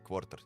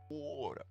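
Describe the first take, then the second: First: It is said with a hard Russian-style R. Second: It is said in the speaker's plain accent.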